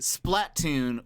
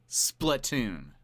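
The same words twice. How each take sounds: First: It is split as splat plus oon. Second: It is said as platoon with s added. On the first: "Like platoon, but with a splat" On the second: "just a s in front of it"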